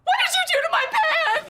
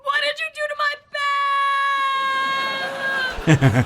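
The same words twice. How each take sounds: First: It is said in a terrified way. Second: It is yelled as if falling off a cliff.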